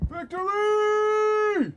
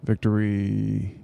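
First: Long high yell, stretched slowly; drawn-out shout. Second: Said in the usual way. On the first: Retold or imitated. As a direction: belt it out, stretched. Ari Gold catchphrase yelled.

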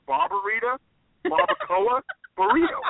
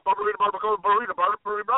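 First: "Barbarita, barbacoa, burrito" word by word, with pauses between. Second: "barbarita, barbacoa, burrito" rattled off fast without pauses; fast tongue twister. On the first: Real, not acted. Naming the dish word by word. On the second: Shown as a demonstration. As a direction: race through "barbarita, barbacoa, burrito" on repeat. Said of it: "Can you say that five times fast?".

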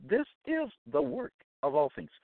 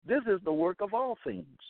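First: "This is the work" word by word, stress on "is"; emphatic repeat. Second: Said in the usual way. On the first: Real, not acted. Preacher repeats his claim to listeners, emphatically word by word. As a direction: separate "This", "is", "the work" for weight.

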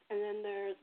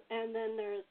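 The two takes are said the same way.

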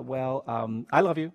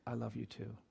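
First: Reluctant mumbled build-up, then blurted out; grudging, halting child's declaration; insincere. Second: Very soft, low and tender; gentle near-whisper, no hesitation; retold whisper. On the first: Retold or imitated. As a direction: stall with hesitant fillers, then toss it out insincerely. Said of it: "as insincerely as I possibly could". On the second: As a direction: say it hushed and smooth, as into an ear. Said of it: "he whispered flawlessly in my ear".

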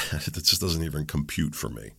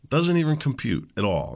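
First: Said in the usual way. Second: Higher, louder, stress on Doesn't; emphatic repeat. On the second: Real, not acted. Telling viewers about gym-goers who never sweat, emphatic repeat. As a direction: hammer home Doesn't. Repeats the point more strongly.

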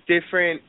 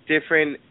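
No difference in how they are said.

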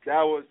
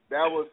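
No difference in how they are said.

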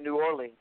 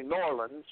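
First: New Orleans as separate words, New Or-leens; New Orleans as spelled. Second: New Orleans run together as NAW-lins; local pronunciation of New Orleans. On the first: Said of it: "you don't say New Orleans". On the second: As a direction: squash New Orleans into one word, NOR-luns. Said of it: "You say Norlands". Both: Shown as a demonstration.

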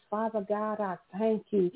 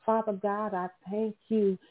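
Both takes have the same delivery.

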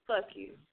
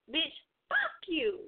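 First: Said in the usual way. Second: "fuck you" high and drawn out; playful inflection. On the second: Shown as a demonstration. Host demonstrating tone and inflection, high playful drawl. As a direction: stretch "Bitch, fuck you" slowly, pitched up. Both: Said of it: "tone and inflection".

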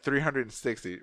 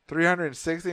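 First: Said in the usual way. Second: "Three hundred and sixty" raised, with a rising end; questioning. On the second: Retold or imitated. Patient double-checking the bill amount, questioning.

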